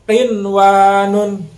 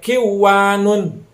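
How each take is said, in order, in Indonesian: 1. Bunyi n diucapkan dengan jelas sebelum w. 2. Bunyi n dihilangkan dan menyatu ke dalam w. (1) "Maka dibacanya harus jelas" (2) "Jangan sampai kiwanun"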